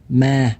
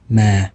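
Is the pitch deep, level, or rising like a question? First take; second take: level; deep. First: The pitch stays level at mid height. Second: The pitch is low and deep. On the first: It means ghost. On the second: It means but.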